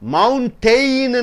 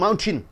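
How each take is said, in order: First: The last syllable has a full 'tain' vowel. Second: The last syllable is a short 'tin'. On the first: The speaker calls it wrong. "என்று சொல்லக்கூடாது" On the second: The speaker calls it right. "ஏஐயை உச்சரிப்பை நீங்கள் விட்டு விடுகிறீர்கள்"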